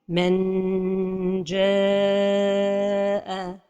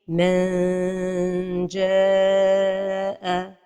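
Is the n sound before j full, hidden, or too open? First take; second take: full; hidden. First: The n is sounded fully with tongue touching. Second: The n is hidden as a nasal hum. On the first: The speaker calls it wrong. "La première erreur est de toucher le palais avec le bout de la langue" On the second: The speaker calls it right. "la prononciation correcte est"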